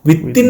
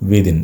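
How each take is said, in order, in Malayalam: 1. മധ്യത്തിലുള്ള വ്യഞ്ജനം കടുപ്പമുള്ള, ഇരട്ട t ആണ്. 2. മധ്യത്തിലുള്ള വ്യഞ്ജനം മൃദുവായ th ശബ്ദമാണ്.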